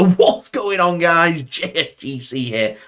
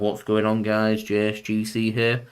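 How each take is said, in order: First: The greeting sounds cheerful and excited. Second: The greeting sounds serious and subdued. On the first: Something good has happened. "like Man City win the Premier League" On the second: Something bad has happened. "if it's something serious"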